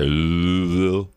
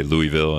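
First: "Louisville" drawn out as "Loo-vul"; slow "Loovill", no "ee" in the middle; two-syllable Louisville. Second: "Louisville" said as "Loo-ee-vill"; "Louisville" with a clear "Louie" start; three-syllable Louisville. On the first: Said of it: "other people say Louisville". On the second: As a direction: sound the middle "ee" in "Louisville". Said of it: "where you say Louisville". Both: Shown as a demonstration.

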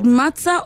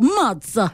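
First: Said in the usual way. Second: "Matza" with a big swooping first syllable; emphatic, stretched "Matza"; Italian-style Matza. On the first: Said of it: "Is it Matza or Matza?". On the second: Shown as a demonstration. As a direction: draw out "Matza" with Italian relish. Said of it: "Say it with passion".

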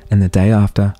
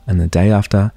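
The two takes are said the same way.

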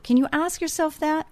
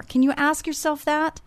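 First: "yourself" lifted high and leaned on; stress on YOURSELF. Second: "ask" lifted high and leaned on; stress on ASK. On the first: Host urging listeners, stress on "yourself". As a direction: turn the question onto "yourself". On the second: Host urging listeners, stress on "ask". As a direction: push the word "ask". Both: Shown as a demonstration. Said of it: "repeated question, stress shifts".

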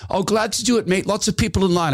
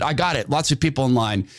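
First: High, easygoing put-on voice saying "Lots of people in line"; Glenn's reply. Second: Said in the usual way. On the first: Glenn brushing off thanks because of the queue, in a high voice. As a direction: shrug it off cheerfully, pitched well up. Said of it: "He goes". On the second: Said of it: "I said".

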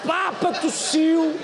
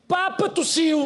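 First: Mock dramatic headline, slower. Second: Mock dramatic headline. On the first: Repeats headline slower, higher.

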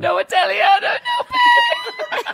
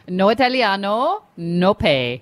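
First: High shouted mock Italian, laughing; Italian accent shout. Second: Slow, light mock Italian accent. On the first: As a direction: yell it like a tearful tantrum. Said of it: "And then you need to start crying". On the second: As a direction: say it slowly with a hint of Italian accent. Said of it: "Do I do it in my Italian accent".

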